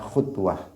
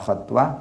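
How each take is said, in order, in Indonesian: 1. Vokal pertama adalah bunyi u bulat. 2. Vokal pertama adalah bunyi a terbuka. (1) "boleh dibaca khutwah" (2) "boleh dibaca khatwah"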